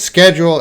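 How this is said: It is said with an American pronunciation. "American pronunciation is schedule"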